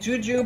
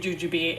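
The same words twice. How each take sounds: First: The word has its standard pronunciation. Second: The word has a Midwestern pronunciation. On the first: This is the expected pronunciation. "is how you're supposed to say it" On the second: This is how people from one region say it. "if you're from the Midwest, you say"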